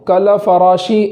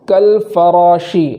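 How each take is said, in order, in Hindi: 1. l के बाद छोटा अ स्वर आता है। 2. l के बाद कोई स्वर नहीं आता, वह बंद होता है। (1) "ऐसा नहीं पढ़ेंगे" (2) "बल्कि"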